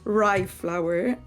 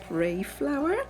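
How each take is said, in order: First: The first word rhymes with 'eye'. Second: The first word rhymes with 'day'. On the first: The speaker calls it right. "I should pronounce it rye flour" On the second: The speaker calls it wrong. "and not ray flour"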